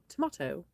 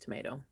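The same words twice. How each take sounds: First: It is said with a British accent. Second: It is said with an American accent.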